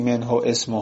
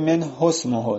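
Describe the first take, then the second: First: The glottal stop before ismuhu is pronounced. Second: The glottal stop before ismuhu is dropped. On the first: The speaker calls it wrong. "نمیگی" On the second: The speaker calls it right. "بریم"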